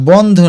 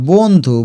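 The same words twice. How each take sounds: First: বন্ধু with open ɔ, "bɔndhu"; wide first vowel in বন্ধু; wrong first vowel. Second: বন্ধু as "bondhu" with closed o; correct rounded vowel. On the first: Teacher rejects this reading, বন্ধু with open ɔ. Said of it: "আর বন্ধু না". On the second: Teacher explains the o-kar, বন্ধু with rounded o. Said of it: "ব ওকার ব". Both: Shown as a demonstration.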